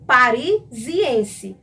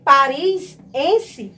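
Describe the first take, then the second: First: "Parisiense" drawn out slowly with the linking i; "Parisiense" slow and split, the i clearly sounded; harmonious linked form. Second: "parisiense" without the linking i, as "Paris-ense"; "parisiense" with the i dropped before -ense; awkward unlinked form. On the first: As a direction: stretch "Parisiense" as pari-zi-ense. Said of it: "Soa muito melhor e é muito mais harmônico". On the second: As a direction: say "parisiense" as two joined pieces, Paris plus ense. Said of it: "porque não soa legal". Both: Shown as a demonstration.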